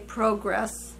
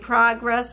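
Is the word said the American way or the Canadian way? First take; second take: Canadian; American. First: It is said the way Canadians say it. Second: It is said in the speaker's own American way. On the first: "the people up in Canada, they say a lot of words different than us" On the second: "Instead of saying progress"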